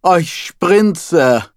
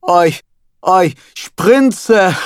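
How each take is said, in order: First: High moaning "Oi, Sprinze" with a long falling Oi; voicing the rabbi moaning for his wife; mock moan. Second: High, louder moaning "Oi, oi, Sprinze"; dubbing the rabbi close to climax; building mock moan. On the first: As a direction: moan the wife's name like a dubbed climax. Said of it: "I moaned". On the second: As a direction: ham it up toward a climax. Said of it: "The rabbi was about to climax".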